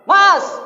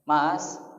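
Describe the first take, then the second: First: It is snapped out as a shout. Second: It is called softly.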